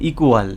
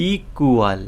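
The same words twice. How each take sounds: First: Said in the usual way. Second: "equal" drawn out in parts, ই, কু, য়াল; split into syllables. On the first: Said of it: "দেখো". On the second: Shown as a demonstration. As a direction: pull the syllables of "equal" apart for the class. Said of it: "এই সিলেবেলে যদি stress পড়ে". ("Equal" syllable ভেঙে টেনে বলা)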